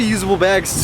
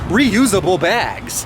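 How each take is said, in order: First: The words are said quickly and run together. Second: The words are said slowly with careful articulation. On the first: The speaker calls it wrong. "I don't know if I said that too fast" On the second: The speaker calls it right.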